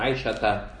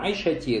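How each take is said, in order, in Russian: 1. Слово заканчивается на гласный 'a'. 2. Слово заканчивается на гласный 'i'. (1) "говорится как на Айша Та" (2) "говорят не на Айша Ти"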